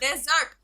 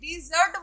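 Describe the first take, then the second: First: The stress is on the first syllable. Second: The stress is on the second syllable. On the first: It names a dry region with little water. "पहले word को अगर आप stress डाल रहे हो" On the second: It names a sweet food eaten after a meal. "जब आप stress second syllabus में"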